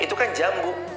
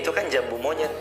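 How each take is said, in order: First: There is a pause after the word jambu. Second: It runs as one phrase with no pause. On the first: It names a fruit, then a monkey separately. "kalau di koma, antara jambu sama monyetnya" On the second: It names the cashew fruit. "Satu intonasi"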